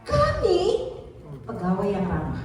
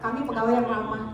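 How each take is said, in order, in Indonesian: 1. Kata kami ditekankan. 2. Tidak ada kata yang menonjol; intonasinya datar. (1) "artinya kami" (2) "nggak ada orang tahu"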